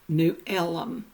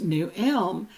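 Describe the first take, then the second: First: Elm is said as two syllables. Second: Elm is said as one syllable. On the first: "everybody called it New Elm" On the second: "instead of being pronounced New Elm"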